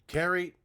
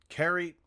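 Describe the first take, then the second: The two takes are said the same way.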